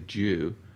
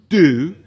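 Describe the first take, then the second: First: It is said in his own accent, sounding like 'jew'. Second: It is said the American way, sounding like 'do'.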